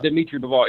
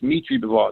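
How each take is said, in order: First: The first name begins with a D sound. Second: The first name begins with an M sound. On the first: The speaker calls it wrong. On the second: The speaker calls it right. "The D is silent"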